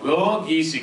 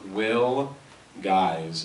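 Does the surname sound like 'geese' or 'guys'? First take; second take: geese; guys. First: The surname rhymes with 'peace'. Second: The surname rhymes with 'eyes'. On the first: The speaker calls it right. "Geese. Oh, okay" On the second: The speaker calls it wrong. "I'm going to pronounce it wrong"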